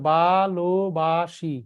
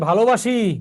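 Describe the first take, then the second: First: The word is said slowly, syllable by syllable. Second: The word is said smoothly at normal speed.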